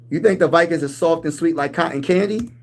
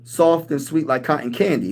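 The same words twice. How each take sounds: First: Disbelieving, rising on think; incredulous question. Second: Said in the usual way. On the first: Acted. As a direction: throw the claim back in disbelief. Mock disbelief at rival fan.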